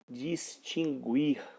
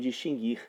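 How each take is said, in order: First: The u after the g is pronounced. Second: The u after the g is silent. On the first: The speaker calls it wrong. "como se um dia tivesse havido aí o, o trema sobre a sílaba guir" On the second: The speaker calls it right. "Distinguir sempre foi distinguir"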